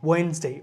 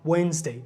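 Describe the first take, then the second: The two takes are said the same way.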